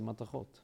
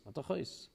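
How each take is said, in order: First: The word ends with a t sound. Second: The word ends with an s sound.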